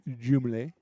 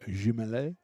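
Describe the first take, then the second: First: The name is said without a French pronunciation. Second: The name is said with a French pronunciation.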